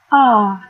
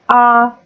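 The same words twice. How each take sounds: First: The pitch dips down and then rises. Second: The pitch stays level and flat. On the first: "nadanya melengkung, seperti di ayun gitu" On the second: "Nada pertama nada datar"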